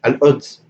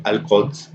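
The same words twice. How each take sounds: First: Al-Quds with a glottal stop for the q; Jerusalem accent hamza. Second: Al-Quds with a throaty q sound; standard qaf. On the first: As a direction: drop the q in Al-Quds, Jerusalem style. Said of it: "in the actual Jerusalem accent". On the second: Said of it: "the city of Jerusalem in Arabic". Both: Shown as a demonstration.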